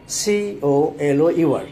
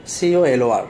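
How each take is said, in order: First: Teacher spells the British way for students, slow and letter by letter; British spelling spelled out. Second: Teacher answers with the American letters, spelled out; American spelling spelled out. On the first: Teacher spells British colour for students, slowly, letter by letter. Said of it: "ব্রিটিশরা কী লেখেন?". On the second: Teacher spells American color for students, letter by letter. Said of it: "আমেরিকানরা কী লেখেন?". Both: Shown as a demonstration.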